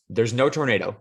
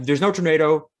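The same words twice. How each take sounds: First: Said in the usual way. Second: "There's no tornado" said higher and louder, NO stressed; emphatic restatement. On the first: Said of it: "let's take it back again". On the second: Acted. Mocking the old woman's line to a friend, emphatic restatement. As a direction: hammer the word "no" in "There's no tornado" like a point scored.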